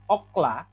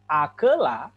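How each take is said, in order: First: The first vowel is 'o', with two syllables. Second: The first vowel is 'a', with three syllables. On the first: The accent mark is absent. "Akela dengan okla sebenarnya sama katanya, bedanya cuma tanda ini" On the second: The accent mark is present. "Akela dengan okla sebenarnya sama katanya, bedanya cuma tanda ini"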